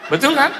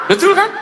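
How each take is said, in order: First: Said in the usual way. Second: Laughing. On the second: Real, not acted. Preacher laughing at his own story.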